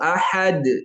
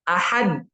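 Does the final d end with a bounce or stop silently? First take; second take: bounce; silent. First: The final d is released with an echoing bounce. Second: The final d is held closed with no release. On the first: "ini bunyi qalqalah" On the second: "Qalqalah ketika tasodum dia tidak ada suara"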